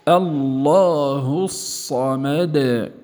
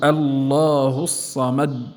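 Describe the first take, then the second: First: The final d is released with a slight bounce. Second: The final d is stopped abruptly without release. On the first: The speaker calls it right. "تخرج بالتباعد" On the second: The speaker calls it wrong. "لا نقول الله الصمد، هذا تصادم"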